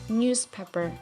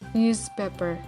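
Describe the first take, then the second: First: The middle consonant is a voiceless s sound. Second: The middle consonant is a voiced z sound. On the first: The speaker calls it right. "z becomes s when followed by p or t sound" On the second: The speaker calls it wrong. "we can't not read newspaper"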